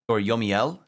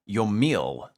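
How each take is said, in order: First: The name is said with three syllables. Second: The name is said with two syllables. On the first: The speaker calls it wrong. "There'd be a thing above the E if it was Yomiel" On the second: The speaker calls it right. "I think is how I pronounce that"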